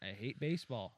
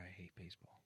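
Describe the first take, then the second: First: Defiant declaration. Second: Whispered, barely voiced admission; hushed confession. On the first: Real, not acted. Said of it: "I'll fucking say it". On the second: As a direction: confess it under your breath. Confesses before saying it louder.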